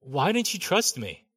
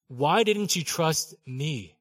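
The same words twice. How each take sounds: First: Said in the usual way. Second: "Why didn't you trust me?" said very slowly, each word drawn out; slow right down on "Why didn't you trust me?", gently pressing; slow, searching. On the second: Shown as a demonstration.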